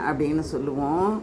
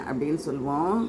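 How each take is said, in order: The two takes are said the same way.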